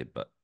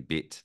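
First: Kiwi "but" for bit, short central vowel; lower, lazy New Zealand "but"; New Zealand accent. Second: Said in the usual way. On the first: Shown as a demonstration. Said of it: "they say but". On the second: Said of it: "instead of saying bit".

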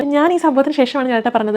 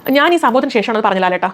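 First: Mocking an over-dramatic, fake tone; lightly imitated fake drama queen delivery. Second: Said in the usual way. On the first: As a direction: parody her put-on dramatic way of speaking. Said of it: "ഇതെന്തിനാണ് ഇങ്ങനെ പറയുന്നത്?". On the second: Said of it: "ഇങ്ങനെ പറഞ്ഞൂടെ?".

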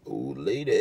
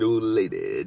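First: Lower, softer put-on voice for the nephew's line; lightly voiced nephew imitation; imitating nephew. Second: Said in the usual way. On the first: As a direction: mimic the kid's old lady quip, dropped low and soft. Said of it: "Hey, what you say, bro?". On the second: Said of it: "Nephew says".

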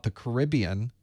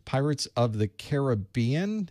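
First: "Caribbean" as "kuh-RIB-ee-un"; "Caribbean" stressed early, on the second syllable. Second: "Caribbean" as "care-uh-BEE-un"; "Caribbean" stressed late, on the third syllable. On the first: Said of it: "I always pronounce it that way". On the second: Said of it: "is how I always hear it". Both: Shown as a demonstration.

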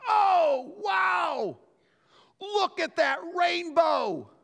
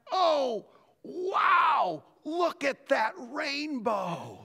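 First: High, loud, delighted exclaim at a rainbow; wife spots a rainbow from the car, high and thrilled; excited wife. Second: Higher, slow wonder; amazed. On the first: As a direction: gush like you just spotted something wonderful. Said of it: "all of a sudden she goes". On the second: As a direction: marvel as it finally appears. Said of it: "and I went". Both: Retold or imitated.

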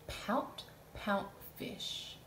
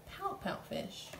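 First: Whispered slow title. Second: Playful high title; high repeat. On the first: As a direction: Pout Pout Fish said very slowly and hushed. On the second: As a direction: Pout Pout Fish repeated much higher, hushed. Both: Shown as a demonstration. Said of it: "and it is called".

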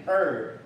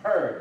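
First: 二 as a bare er, no H; 二 said "er", the H dropped; silent H. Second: "her" with an audible H at the start; "her" said h-er, H sounded; H pronounced. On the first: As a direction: start straight on the vowel in 二. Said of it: "有的时候不发音". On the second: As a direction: breathe the H before the er in "her". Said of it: "有人会发her". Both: Shown as a demonstration.

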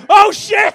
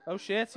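First: High, very loud shout; big high-pitched exclamation; shouted alarm. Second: Said in the usual way. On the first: Real, not acted. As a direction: yell it out as the penny drops. Reacting to second Irish audience member.

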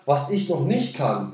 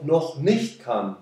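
First: Slow, with weight on "noch nicht kann" and a falling end; stress on noch nicht kann. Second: Said in the usual way. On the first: Shown as a demonstration. Coach to viewers, stressing "noch nicht kann". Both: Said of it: "die Betonung liegt auf noch nicht kann".

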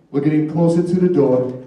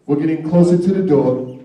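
Both takes have the same delivery.

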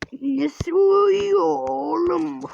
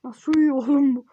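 First: Very slow, stretched in another voice; drawn-out mock voice. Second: Said in the usual way. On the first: Shown as a demonstration. Player mocking the sleeping kid, stretched out slowly. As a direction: stretch every word out in a funny voice.

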